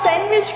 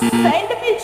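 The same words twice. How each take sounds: First: The d sound is left silent. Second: The d sound is clearly pronounced. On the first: The speaker calls it right. "ડી silent છે ત્યાં" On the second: The speaker calls it wrong. "ખોટું સેન્ડવિચ ના કહેવાય"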